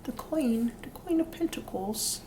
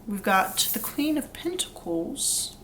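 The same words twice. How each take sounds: First: Put-on whispered, higher British accent on Queen; slight British accent, whispered. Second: Put-on slow, drawn-out light British accent on Queen; slight British accent. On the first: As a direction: breathe out Queen of Pentacles in a soft British accent. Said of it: "doing a little slight British accent". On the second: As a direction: drawl Queen of Pentacles in a hint of British accent. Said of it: "I don't know why I said it like that".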